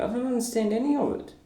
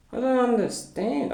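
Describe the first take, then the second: First: Fast confused. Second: "I don't understand" said much higher with a rising end; exasperated confusion. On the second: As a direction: pitch up in baffled exasperation. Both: Real, not acted. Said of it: "So I'm very confused".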